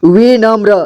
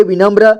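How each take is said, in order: First: विनम्र as वि-नम्र; syllable by syllable. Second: Said in the usual way. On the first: Shown as a demonstration. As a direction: sound out विनम्र in parts. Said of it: "इसे पढ़ेंगे विनम्र". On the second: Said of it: "इसे पढ़ेंगे".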